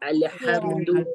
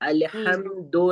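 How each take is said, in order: First: The final vowel sounds like oo. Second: The final vowel sounds like o. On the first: The speaker calls it right. "पेश की अदायगी में ऊ का साउंड आएगा" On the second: The speaker calls it wrong. "नहीं"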